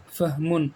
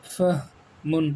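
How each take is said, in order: First: Said in the usual way. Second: فہمن drawn out very slowly as fah-mun; slow model reading. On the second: Shown as a demonstration. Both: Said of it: "اس میں فرق ہے".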